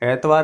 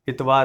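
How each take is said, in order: First: The word begins with an 'e' vowel. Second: The word begins with an 'i' vowel. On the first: The speaker calls it wrong. "एतवार नहीं है ये" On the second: The speaker calls it right. "इतवार है"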